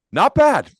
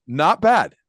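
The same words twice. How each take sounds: First: Much higher and louder, playfully exaggerated "Not bad"; wry understatement. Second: Repeated "Not bad", higher and louder but less extreme; wry understatement. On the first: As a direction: sell the irony, a big amused jump up. Ironic understatement about huge profit. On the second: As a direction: echo the joke, easing down. Repeats the joke, calmer.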